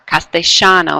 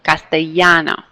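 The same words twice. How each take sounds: First: The double L sounds like sh. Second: The double L sounds like a Y.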